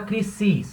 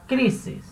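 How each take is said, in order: First: The stress is on the last syllable. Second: The stress is on the first syllable. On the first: The speaker calls it wrong. "Você não fala crisis" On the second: The speaker calls it right. "a primeira sílaba é a mais forte"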